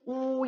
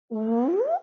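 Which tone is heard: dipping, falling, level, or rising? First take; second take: level; rising. First: The syllable is said with a high level tone. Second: The syllable is said with a rising tone. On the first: It means crow. "一声乌乌鸦" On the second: It means there is none. "二声无"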